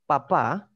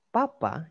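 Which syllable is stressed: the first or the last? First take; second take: last; first. First: The stress is on the last syllable. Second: The stress is on the first syllable. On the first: It means father. "Papa itu ayah" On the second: It means potato or pope. "ini enggak ada ininya, enggak ada apanya? Enggak ada aksennya"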